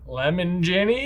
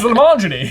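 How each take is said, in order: First: It sounds like the two words lemon and Jenny. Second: It sounds like one single run-together name. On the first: The speaker calls it wrong. "a name that everyone mispronounces" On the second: The speaker calls it right. "It's Lemongeny"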